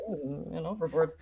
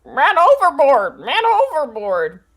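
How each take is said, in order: First: Soft, flat bored parrot; deadpan parrot. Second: High, loud squawking parrot cry. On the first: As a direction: drop it quietly, unbothered. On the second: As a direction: shriek it like a panicked parrot. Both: Acted. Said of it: "who acts as my voice".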